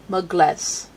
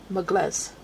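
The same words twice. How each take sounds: First: Mugles said with the second syllable stressed. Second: Softer repeat of Mugles with the weight on les; Mugles, stress falling on the second syllable, quieter. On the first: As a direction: put the weight on the end of Mugles. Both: Shown as a demonstration. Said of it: "Emphasis on the second syllable".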